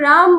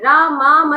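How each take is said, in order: First: The word ends on the consonant m. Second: The word ends with an added a vowel. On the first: It names Ram himself. The speaker calls it right. "राम बोलते हो तो राम राम बोलिए" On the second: It names Sita, not Ram. The speaker calls it wrong. "रामा मत बोलिए"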